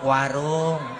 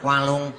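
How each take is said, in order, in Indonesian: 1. Diucapkan dengan suara bicara biasa yang wajar. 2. Diucapkan dengan suara sengau dan cadel yang dibuat-buat.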